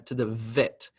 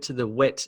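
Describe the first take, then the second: First: The word vet begins with a clear V sound. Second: The word vet begins with a W-like sound. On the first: The speaker calls it right. "it sounds correct" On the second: The speaker calls it wrong. "a mistake that you would hear is"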